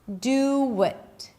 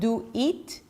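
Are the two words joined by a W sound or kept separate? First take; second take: joined; separate. First: The words are joined by a W sound. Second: The words are kept separate without a W. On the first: The speaker calls it right. "when I connect the oo of the do and the schwa, I get another sound, and that is a W sound" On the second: The speaker calls it wrong. "notice I'm not saying do it"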